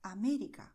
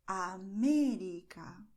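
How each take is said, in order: First: América at natural length, lightly stressed on "mé"; everyday Spanish América, stress kept compact. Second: América drawn out slowly, "mé" long and loud; América slowly, with an exaggerated loud stressed "mé". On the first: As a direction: say América briskly, without stretching the "mé". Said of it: "This is the way we speak in Spanish". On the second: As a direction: lean hard and long on the "mé" in América. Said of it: "then you go and stress it". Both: Shown as a demonstration.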